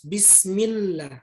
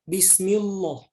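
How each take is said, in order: First: The 'l' of Allah is pronounced thin. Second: The 'l' of Allah is pronounced thick. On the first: The speaker calls it right. "Tapi harus bismillah" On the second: The speaker calls it wrong. "tidak boleh lagi baca bismillah"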